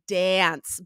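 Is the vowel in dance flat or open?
flat. The vowel is a flat, hard a. "we have the hard ah"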